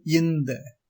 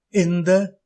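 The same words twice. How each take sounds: First: இந்த said as "yinda"; wrong y onglide. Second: Said in the usual way. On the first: Shown as a demonstration. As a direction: put a y sound before இந்த. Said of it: "தவறு". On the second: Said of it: "சரி".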